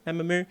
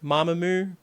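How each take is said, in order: First: Mamamoo with the "a" of mat first, softer and higher; alternative pronunciation. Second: Mamamoo with an open "ah" first, pitched up; first pronunciation. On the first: Host testing other option, Mamamoo as MAM-uh-moo. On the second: Host unsure of band's name, Mamamoo as MAH-muh-moo. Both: Shown as a demonstration. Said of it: "the pronunciation is".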